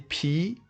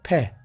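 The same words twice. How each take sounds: First: The letter is said with its English sound. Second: The letter is said with its French sound. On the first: The speaker calls it wrong. "Don't say P" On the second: The speaker calls it right. "Say P"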